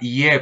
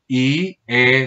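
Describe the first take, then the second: First: The two vowels glide together in one syllable. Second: The two vowels are split into two syllables. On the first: The speaker calls it wrong. "por mi español o por mi lengua, yo lea ie" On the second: The speaker calls it right. "hay que llegar es a la separación"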